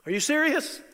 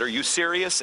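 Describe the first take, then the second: First: High, loud, incredulous question; playing Joy's astonished reaction for the crowd; amazed disbelief. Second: Said in the usual way. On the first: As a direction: throw it up high in wide-eyed wonder. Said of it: "He's in love with you".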